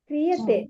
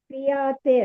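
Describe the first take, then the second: First: The second syllable has a short vowel. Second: The second syllable has a long vowel. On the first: The speaker calls it right. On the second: The speaker calls it wrong.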